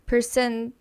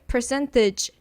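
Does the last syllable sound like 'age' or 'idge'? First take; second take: age; idge. First: The last syllable is said like 'age'. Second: The last syllable is said like 'tidge'. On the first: The speaker calls it wrong. "Someone might might pronounce percentage" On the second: The speaker calls it right. "But it's kind of like tidge"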